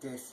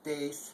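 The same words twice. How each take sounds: First: The vowel is said soft and light. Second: The vowel is said hard and strong. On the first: The speaker calls it right. "so it's just more like des" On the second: The speaker calls it wrong. "it's not a hard E like des"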